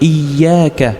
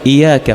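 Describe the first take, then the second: First: The y sound is doubled and held. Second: The y sound is single and short. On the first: You worship and seek help only from God. The speaker calls it right. "في التجديد" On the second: It comes to mean sunlight, a shameful error. The speaker calls it wrong. "لا تشدد بياء واحدة"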